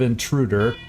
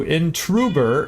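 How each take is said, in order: First: The consonant before the last syllable is D. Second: The consonant before the last syllable is B. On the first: This is the normal form of the word. The speaker calls it right. "instead of" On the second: This imitates the character's faulty speech. The speaker calls it wrong. "He adds a lot of B's"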